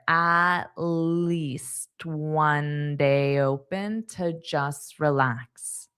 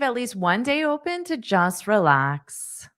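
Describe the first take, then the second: First: It is said slowly and carefully. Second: It is said at a natural conversational speed.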